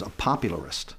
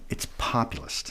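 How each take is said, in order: First: Popularist said with an extra syllable, pop-yu-lar-ist; quoting the boss who says popularist instead of populist; mispronounced popularist. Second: Populist said as POP-yu-list, three syllables, dropped low and quiet; populist, set right under the breath; correct populist. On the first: Retold or imitated. The boss's wrong word popularist, quoted plainly. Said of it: "No, no, no, no, it's populist". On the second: Shown as a demonstration. Correcting the boss: populist, said low and soft. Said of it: "No, no, no, no".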